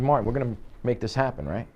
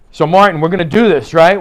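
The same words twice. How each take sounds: First: Softer, quick and confidential; level, low-key approach. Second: Loud, higher pushy pitch; overbearing approach. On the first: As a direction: say it casually at the client's level. Seated at client's level, demo. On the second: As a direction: come on strong, too loud for the room. Standing over client, mismatched approach demo. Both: Shown as a demonstration.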